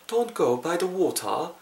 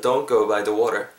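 First: Slow, higher-pitched British accent. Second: American "water" with a flapped t; American accent. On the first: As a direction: put on British English, "waw-tah" with a crisp t. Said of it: "브리티시 액센트로 하시려면은". (영국식 억양으로 천천히) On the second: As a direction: say it American-style, ending on "wah-der". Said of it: "내가 필요한 부분은 미국식". (미국식 억양으로 "워러") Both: Shown as a demonstration.

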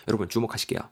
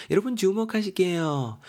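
First: Said in the usual way. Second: Exaggerated attention call. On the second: Teacher calls listeners to look at the word, exaggerated high call. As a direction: call everyone to attention in a much higher voice.

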